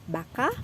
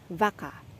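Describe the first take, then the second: First: The word begins with a B sound. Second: The word begins with a V sound. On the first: The speaker calls it right. "native speaker akan bilang baka" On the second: The speaker calls it wrong. "aku ucapin ini vaca, vaca. Tapi itu uh, tidak seperti kedengarannya, tidak seperti native speaker"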